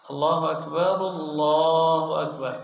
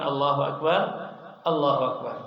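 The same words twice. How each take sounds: First: Both phrases are said together in one breath. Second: The phrases are broken apart by a pause. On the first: The speaker calls it right. "bersamaan, satu nafas" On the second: The speaker calls it wrong.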